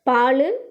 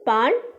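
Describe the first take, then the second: First: The word ends with an added final vowel. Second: The word ends on the consonant without a vowel. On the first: This is how it is said in everyday speech. "பேச்சு வழக்கு" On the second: This is the form used in writing. "எழுத்து வழக்கு"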